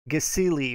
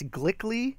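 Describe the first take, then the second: First: The word starts with 'g' then a vowel. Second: The word starts with a 'gl' cluster. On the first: "It's like Gasili or something like that" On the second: "I always want to say it's Glickly, but I know it's it's not"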